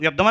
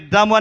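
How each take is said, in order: First: It is said with the aspirated consonant kept. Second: It is said with a changed, distorted consonant. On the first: The speaker calls it right. "ఒత్తులు యుద్ధం అని పలితే సరిపోతుంది" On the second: The speaker calls it wrong. "విద్దాము అని అన- అనవలసిన పని లేదు"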